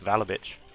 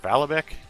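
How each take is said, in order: First: The name ends with a CH sound. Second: The name ends with a hard K sound. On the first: The speaker calls it right. "it's pronounced like a C H, the K, so it's Valabich" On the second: The speaker calls it wrong. "or Valabek"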